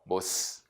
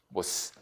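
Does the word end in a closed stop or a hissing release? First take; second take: hissing; hissing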